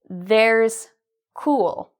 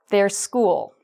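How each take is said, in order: First: The s is attached to the first word. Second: The phrase is said quickly without a break. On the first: "I've written it as theirs cool" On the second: "And now let's say it faster"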